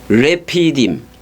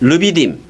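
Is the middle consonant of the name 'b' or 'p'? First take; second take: p; b. First: The name is said as 're-pi-dim' with a p. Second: The name is said as 'reu-bi-dim' with a b. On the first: This is the original pronunciation of the name. "원래는 레피, 어, 레피딤 해보세요" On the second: This is the Korean Bible spelling of the name. "르비딤이 아니라 그 한글 저거고"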